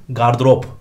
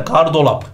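First: GARDIROP ending in -rop; correct pronunciation. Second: GARDOLAP ending in -lap; common mispronunciation. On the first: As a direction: say gardırop with r, no l. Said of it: "dememiz lazım". (doğru söyleniş, gardırop) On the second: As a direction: say gardolap like "dolap". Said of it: "konuşurken hep böyle diyoruz". (yanlış söyleniş, gardolap) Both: Shown as a demonstration.

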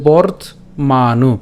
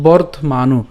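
First: "বর্ত মানু" with a pause between bort and manu; broken-down pronunciation. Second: "বর্তমানু" as one word, bort-ma-nu; joined-up pronunciation. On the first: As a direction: split "বর্ত মানু" into two clear parts. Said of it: "উচ্চারণ সুবিধার জন্য ভাঙিয়েছি". ("বর্ত মানু" দুই ভাগে থেমে উচ্চারণ) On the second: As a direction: run "বর্তমানু" together without a break. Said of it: "উচ্চারণ করার সময় একসাথে উচ্চারণ করব". ("বর্তমানু" একসাথে এক শব্দে উচ্চারণ) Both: Shown as a demonstration.

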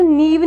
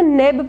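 First: नीब with a long "ee" vowel; wrong "ee" in नीब. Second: नेब with an "eh" vowel; E sound in नेब. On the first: Teacher shows how not to read N-E-B, "ee" in नीब. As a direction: say नीब like "neeb". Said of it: "नीब नहीं पढ़ सकते". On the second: Teacher gives correct reading of N-E-B, "eh" in नेब. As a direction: make नेब rhyme with "web". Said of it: "हम इसे नेब pronounce करेंगे". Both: Shown as a demonstration.

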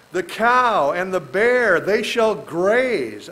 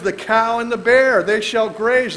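First: Very slow, drawn-out reading of the verse; slow scripture reading. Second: Louder, higher, faster reading of the verse; emphatic scripture reading. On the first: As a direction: stretch each word of the verse. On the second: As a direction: proclaim the verse with force. Rereading the verse. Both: Acted.

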